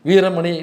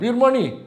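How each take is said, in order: First: The vowel after veer is kept. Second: The vowel after veer is dropped. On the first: This is the family's own pronunciation. The speaker calls it right. "ஈஸியாக வாசிக்கக்கூடிய பேர் தான்" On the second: This is how outsiders say the name. The speaker calls it wrong. "வீரமணிங்கிற வார்த்தையை தவிர பாக்கி எல்லா பேரையும் சொல்லுவாங்க"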